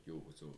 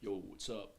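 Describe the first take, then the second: First: Deep gnome voice. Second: Much lower, soft bass gnome voice; deep gnome voice. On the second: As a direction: rumble it low like a deep gnome. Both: Shown as a demonstration. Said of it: "deep kinda gnome and be like".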